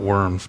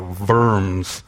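First: The word begins with an English W sound. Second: The word begins with a hard V sound. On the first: The speaker calls it wrong. "It's not worms" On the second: The speaker calls it right. "If you're really German, you would just make it a hard V"

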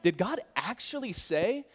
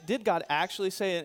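First: It sounds like an indignant, incredulous question. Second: It sounds like a genuinely doubtful question. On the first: The speaker resents that God forbade it. "as in, can you believe he's not letting you do this?" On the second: The speaker questions whether God really said it. "In other words, did he really say that?"

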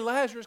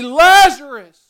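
First: The name is said softly and casually. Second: The name is shouted in a loud voice. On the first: It is an offhand, everyday call. "It wasn't just, hey" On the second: It is a commanding, powerful call. "he speaks loudly"

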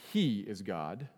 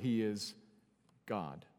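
First: The stress falls on the word He. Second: The stress falls on the word God. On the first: This one alone is God, unlike the other gods. The speaker calls it wrong. "not He is God. That would be the other context" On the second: Reflect on the godness of this God. The speaker calls it right. "This is pushing us to consider the godness of God"

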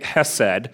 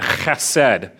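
First: The first sound is soft, without a throaty rasp. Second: The first sound is a harsh throat-clearing rasp. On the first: "I'm not going to clear my throat every time" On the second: "you got to really clear your throat on this one"

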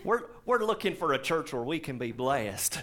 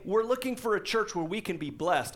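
First: It is said in a southern American accent. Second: It is said in the speaker's plain accent.

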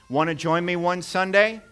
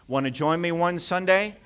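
Both takes have the same delivery.

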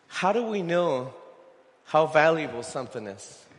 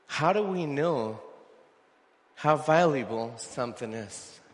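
First: It is said at a normal pace. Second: It is said more slowly.

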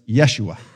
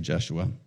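First: The name begins with a Y sound. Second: The name begins with a hard J sound. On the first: This is the Hebrew form of the name. "Jesus in Hebrew was Yeshua" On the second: This is the English form of the name. "we pronounce the J, a hard J, so we say Jeshua"

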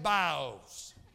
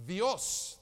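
First: The word begins with a b sound. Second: The word begins with a v sound.

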